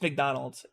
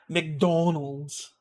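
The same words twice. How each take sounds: First: The whole word is said quickly. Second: The middle syllable is drawn out. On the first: This is how most people say it. "I think we just say it faster" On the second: This imitates how another person says it. "she just holds the da"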